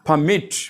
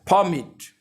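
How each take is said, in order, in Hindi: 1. Stress दूसरे syllable पर है। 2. स्ट्रेस पहले सिलेबल पर है। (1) "if we stress the second syllable फॉमिट it becomes a verb" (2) "अगर पी ई आर फ इस पे हम स्ट्रेस देते हैं तो ये नाउन कहलाता है"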